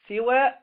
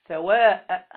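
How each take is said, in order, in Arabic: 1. الحركة الأولى هي i، وتنتهي قصيرة. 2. الحركة الأولى هي a، وتنتهي طويلة. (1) "بكسر السين" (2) "وبالفتح ممدودا"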